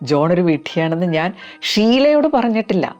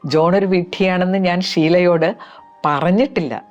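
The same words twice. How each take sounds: First: The stress falls on the word ഷീലയോട്. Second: The stress falls on the word പറഞ്ഞിട്ടില്ല. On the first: It was told to others, but not to her. "വേറെ ഒരുപാട് പേരോട് പറഞ്ഞിട്ടുണ്ട്, പക്ഷെ ഷീലയോട് പറഞ്ഞിട്ടില്ല" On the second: It may have been written, but never spoken aloud. "ഇതുവരെ എൻ്റെ നാക്കുകൊണ്ട് പറഞ്ഞിട്ടില്ല"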